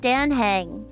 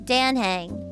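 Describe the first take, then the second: First: The first syllable sounds like 'Dan'. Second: The same.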